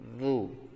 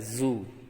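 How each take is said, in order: First: It has a th-like sound, tongue on teeth. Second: It has a buzzing z sound behind the teeth. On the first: The speaker calls it right. "menempelkan lidah di ujung gigi atas" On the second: The speaker calls it wrong. "tidak boleh dibaca zu"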